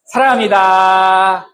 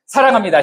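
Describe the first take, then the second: First: Slow, drawn-out 사랑합니다; slow loving greeting. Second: 사랑합니다 said higher, to a spouse; loving greeting. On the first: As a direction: linger on each syllable tenderly. (천천히 다정하게 "사랑합니다") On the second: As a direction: say it to your spouse. (배우자에게 다정하게) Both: Shown as a demonstration. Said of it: "시작".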